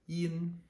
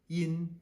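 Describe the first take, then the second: No difference in how they are said.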